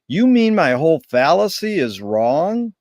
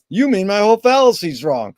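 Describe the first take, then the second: First: It is said as a question. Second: It is said as a statement. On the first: It is a genuine question. "he said it originally as a question" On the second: It is an assertion. "Woody had him say it as a statement"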